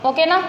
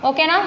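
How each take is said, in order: Both takes have the same delivery.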